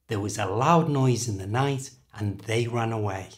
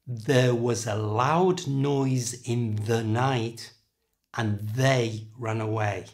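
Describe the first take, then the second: First: Said at normal speed without extra th emphasis. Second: Said slowly with heavy emphasis on th sounds. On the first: "at normal speed without that emphasis" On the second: "first slowly exaggerating, putting emphasis on that th sound"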